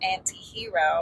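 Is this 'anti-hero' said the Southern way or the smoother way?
smoother. It is said smoothly, sliding off the tongue. This is how the singer says it in the song. "the way she says it in the song is anti-hero"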